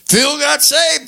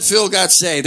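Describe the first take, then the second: First: High, drawn-out mock disbelief; incredulous echo. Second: Said in the usual way. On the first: Imitating family who got the phone call, incredulous. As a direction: stretch it out high, as if you can't believe it. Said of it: "They said, "No way". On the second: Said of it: "They called my family and said".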